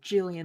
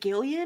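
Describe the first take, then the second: First: The name begins with a J sound. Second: The name begins with a hard G sound. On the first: "Like a J sound?" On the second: "is it a hard G?"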